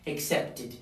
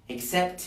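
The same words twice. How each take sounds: First: "accepted" as ac-cept-id; "accepted" falling onto a full "id"; added -ed syllable. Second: Said in the usual way. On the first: Shown as a demonstration. Teacher showing the extra syllable, "accepted" said ac-cept-id. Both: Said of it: "tenemos que agregar una sílaba adicional".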